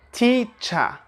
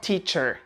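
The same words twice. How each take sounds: First: "teacher" ending in "uh", no R; British non-rhotic "teacher"; schwa ending. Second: "teacher" ending in an American R; pronounced final R. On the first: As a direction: say "teacher" as "tee-chuh", higher pitched. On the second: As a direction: sound the R at the end of "teacher". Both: Shown as a demonstration. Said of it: "not teacher".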